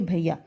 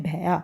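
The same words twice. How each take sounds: First: भैया with a glide, "bha-i-ya"; correct reading. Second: भैया read as "bhai-aa" with open flat 'ai'; children's misreading. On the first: Shown as a demonstration. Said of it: "तो हम इसको पढ़ेंगे". (भैया को "भइया" जैसा बोलें) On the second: Retold or imitated. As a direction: imitate the misreading, भैया without the i glide. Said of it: "बच्चे पढ़ते हैं भैया". (भैया को सीधे 'ऐ' से "भैआ" पढ़ने की नकल)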